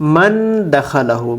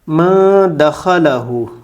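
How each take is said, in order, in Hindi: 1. 'n' को पूरी तरह और साफ़ बोला जाता है। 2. 'n' की ध्वनि हल्की नासिका ध्वनि के साथ छिपी रहती है। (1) "अगर कोई ऐसे पढ़े" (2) "यहाँ पोशीदा होगा"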